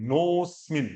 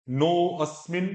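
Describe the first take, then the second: First: नोस्मिन as one word, no अ sound; joined, no अ. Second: नो अस्मिन split into two words with a clear अ; wrong, separated. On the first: Teacher showing नोस्मिन joined, without the अ. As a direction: glide straight from नो to स्मिन. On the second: Teacher contrasting wrong and right pronunciation of नो अस्मिन. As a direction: say नो अस्मिन apart, sounding the अ. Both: Shown as a demonstration. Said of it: "दोनों pronunciation का देखो".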